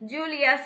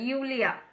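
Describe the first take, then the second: First: The name starts with a J sound. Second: The name starts with a Y sound. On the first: The speaker calls it wrong. "ஜூலியா சொல்லக்கூடாது" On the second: The speaker calls it right. "அங்க வந்து யூலியா சொல்லணும்"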